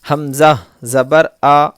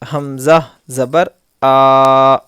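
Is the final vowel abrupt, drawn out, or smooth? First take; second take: smooth; drawn out. First: The final vowel is short and relaxed. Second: The final vowel is stretched out long. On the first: The speaker calls it right. "ना खींचना है ना झटका कर झटका देना है, बस आराम से पढ़ना है" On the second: The speaker calls it wrong. "ये खींच रहे हैं हम लोग, इस तरह बिल्कुल भी नहीं होना"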